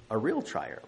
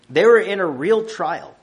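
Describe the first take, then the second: First: Softer, settling repeat of the phrase; preacher echoes his point, dropping softer; quiet echo. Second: Higher and louder, pressing the point; preacher stresses the hardship, higher and louder; emphatic. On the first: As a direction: let the repeat fall gently. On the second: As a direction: drive home that it was a real trial. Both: Real, not acted.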